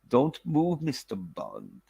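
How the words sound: It is said with a put-on German accent.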